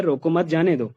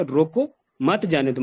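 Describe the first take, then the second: First: "रोको मत" run together, then "जाने दो"; no break after "रोको", break after "मत"; pause after मत. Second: "रोको" on its own, full stop, "मत जाने दो"; pause after रोको. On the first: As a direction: join "रोको मत", release with "जाने दो". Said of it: "पहली लाइन में ये है". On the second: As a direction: slowly, clear break after "रोको". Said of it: "रोको के बाद फुल स्टॉप लगाया". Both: Shown as a demonstration.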